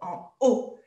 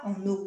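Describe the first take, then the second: First: No n sound links into haut. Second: The n sound links into haut. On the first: The speaker calls it right. "on dit en, en haut" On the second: The speaker calls it wrong. "on ne fait pas la liaison, on ne dit pas en haut"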